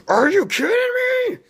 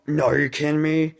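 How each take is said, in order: First: Very high, loud mock screech; frustrated outburst. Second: Higher-pitched, mock-incredulous protest; frustrated disbelief. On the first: Reviewer voicing viewers at the cliffhanger ending, frustrated screech. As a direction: explode in hammed-up disbelief. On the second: Reviewer voicing viewers at the cliffhanger ending, frustrated disbelief. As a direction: act out a viewer in exasperated disbelief. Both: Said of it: "everyone was frustrated at the ending".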